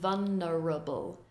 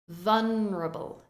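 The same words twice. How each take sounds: First: Every syllable is pronounced fully. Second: One syllable is reduced and shortened. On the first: The speaker calls it wrong. "We don't say vulnerable" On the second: The speaker calls it right. "we have a slightly reduced syllable"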